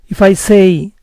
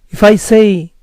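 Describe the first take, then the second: No difference in how they are said.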